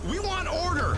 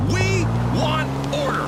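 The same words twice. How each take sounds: First: Said in the usual way. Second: Slow, drawn-out demand, word by word; emphatic demand. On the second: Acted. Radio host making sure America hears him, slow emphatic demand. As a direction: stretch each word to drive it home.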